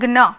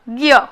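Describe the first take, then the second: First: It is said with g joined to n. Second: It is said with g joined to y. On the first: This is how it is said in Gujarati. "ग और न को जोड़कर हम बोलते हैं ग्न" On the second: This is how it is said in Hindi. "Hindi भाषा में इसे बोलना है ग और य को जोड़कर"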